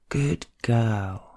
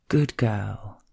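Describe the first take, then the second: No difference in how they are said.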